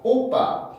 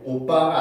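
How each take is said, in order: First: The o vowel is said strongly and forcefully. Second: The o vowel is said plainly and softly. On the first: "오 소리가 조금 다르단 말이에요" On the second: "오빠가 아니라"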